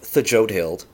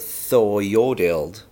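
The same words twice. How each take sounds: First: The name is said with a J sound. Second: The name is said without a J sound.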